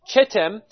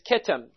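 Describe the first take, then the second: First: The word begins with a 'ch' sound. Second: The word begins with a 'k' sound. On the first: "what most people would pronounce as Chittim" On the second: "but as well is Kittim"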